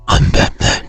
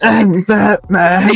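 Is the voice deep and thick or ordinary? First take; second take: deep; ordinary. First: It is said in a thick Batman voice. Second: It is said without a convincing thick voice.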